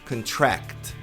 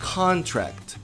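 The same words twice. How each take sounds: First: The stress is on the last syllable. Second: The stress is on the first syllable. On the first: It is the verb meaning to hire. "a tônica é, tá no final. É a última sílaba" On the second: It is the noun meaning a contract. "vamos voltar para contrato substantivo"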